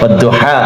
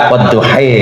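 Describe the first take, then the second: First: The word ends with an open 'a' vowel. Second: The word ends with an 'ee' vowel. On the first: This is the usual reading. "mboten saged rub rubah wadduha" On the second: This is how some other reciters read it. "dadine wadduhi"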